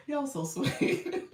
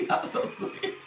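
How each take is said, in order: First: "Y'all so sweet" stretched out much slower. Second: Laughing through "Y'all so sweet". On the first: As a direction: draw each word out gently. Repeats thanks drawn out. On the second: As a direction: let a real giggle carry the words. Thanking viewers mid-laugh. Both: Real, not acted.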